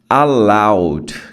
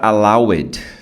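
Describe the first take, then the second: First: The ending is a plain d, two syllables. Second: The ending adds an extra syllable, three syllables. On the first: The speaker calls it right. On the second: The speaker calls it wrong.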